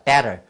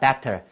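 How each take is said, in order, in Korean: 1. 가운데 t는 부드러워요, 빠른 d 같아요. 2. 가운데 t는 또렷하고 센 t예요.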